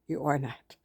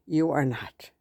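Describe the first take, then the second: First: Much softer, almost to herself; soft repeat. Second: Said in the usual way. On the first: Real, not acted. Reassuring a friend who feels ugly, softly repeated. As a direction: let the words sink in gently, softer. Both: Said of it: "to my friend out there that thinks she's fat and ugly".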